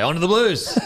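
It is said with enthusiasm.

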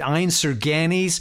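It is pronounced the American way. "being interviewed by American DJs, bless them, and they were pronouncing it"

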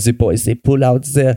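It is said in the German man's put-on voice.

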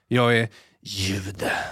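It is said in a soft, seductive tone.

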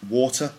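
The middle consonant is a clear T sound. This is the British pronunciation. "We'd say water"

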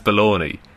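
The word has an English pronunciation. "We pronounce it as Bologna"

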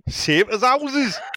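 It is said in a Geordie accent. "you could do a Geordie accent"

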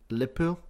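It is clipped and said quickly, Scouse style.

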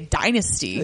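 It is said with an American pronunciation. "being a red-blooded American, say dynasty"

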